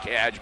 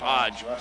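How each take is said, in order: First: The vowel sounds like the one in 'hat'. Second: The vowel sounds like the one in 'hot'. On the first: This is how the spelling looks. The speaker calls it wrong. "it looks like Hadge" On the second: This is how the name is really said. The speaker calls it right. "but it is Hodge"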